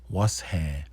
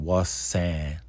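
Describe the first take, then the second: First: The second part begins with an h sound. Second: The second part begins with an s sound. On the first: The speaker calls it right. "do the was and then the han" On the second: The speaker calls it wrong. "instead of saying"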